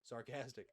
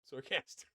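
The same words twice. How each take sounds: First: Said in the usual way. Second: A high, loud "Sarcastic." that breaks into laughter; laughing outburst. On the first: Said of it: "not literally say sarcastic". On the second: Real, not acted. Player repeating his blunder to the judge, high loud and laughing. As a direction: shout the word, then crack up. Blurts the word again, cracks up.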